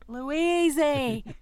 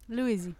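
First: The name is said loudly. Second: The name is said at normal volume.

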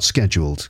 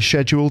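First: The word begins with a 'sk' sound. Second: The word begins with a 'sh' sound. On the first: This is the non-British way of saying it. "not scheduled, because I'm British" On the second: This is the British way of saying it. "I say scheduled"

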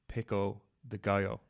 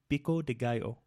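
First: It is said with an English accent. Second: It is said with a Spanish accent.

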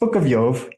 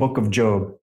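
First: The name ends with a v sound. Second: The name ends with a b sound. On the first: The speaker calls it right. "It's Book of Jove. You can pronounce it correctly" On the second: The speaker calls it wrong. "Stop saying Book of Job"

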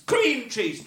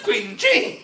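First: The stress is on cream. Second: The stress is on cheese.

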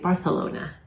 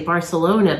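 First: It is said with a Spanish pronunciation. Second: It is said with an American pronunciation. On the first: "apparently in Spain they say Barcelona" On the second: "we Americans would say Barcelona"

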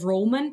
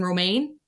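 First: The second syllable sounds like 'man'. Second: The second syllable sounds like 'main'. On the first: The speaker calls it wrong. "I think I mispronounced this wrong before we started recording, and I said Roman" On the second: The speaker calls it right. "but I actually think it's pronounced Alison Romaine"

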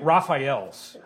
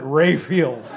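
First: The name is said with three syllables. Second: The name is said as two syllables, Ray Fields. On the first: "It's St. Raphael's" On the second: "because we were in Wisconsin that we pronounced it"

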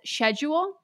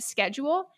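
First: The word is pronounced the British way. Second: The word is pronounced the American way. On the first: This is the odd pronunciation a character uses. "she says schedule" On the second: This is the expected pronunciation. "instead of schedule"

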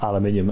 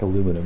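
First: It is said with five syllables, British style. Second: It is said with four syllables, American style. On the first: "as we say" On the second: "Very different in American, and it's like aluminum"

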